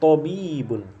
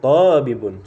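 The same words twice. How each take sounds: First: The middle vowel is held long. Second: The middle vowel is said short. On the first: The speaker calls it right. "tapi tabibun" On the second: The speaker calls it wrong. "Bukan tabibun, salah"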